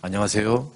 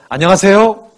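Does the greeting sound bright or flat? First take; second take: flat; bright. First: It is said on a low, flat, dull pitch. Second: It is said on a high, bright, cheerful pitch. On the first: The greeter shows no warmth. The speaker calls it wrong. "도레미 안녕하세요 밋밋한 거예요" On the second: The greeter is warmly glad to see you. The speaker calls it right. "이 솔 정도의 음에서 안녕하세요 라고 인사하면서 이렇게 환하게 웃잖아요"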